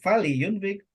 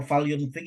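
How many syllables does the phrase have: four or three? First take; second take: four; three. First: The l takes an i vowel, giving four syllables. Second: The l has no vowel, giving three syllables. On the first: "kalau Vali Yunvik empat suku kata" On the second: "kalau Val Yunvik itu tiga suku kata"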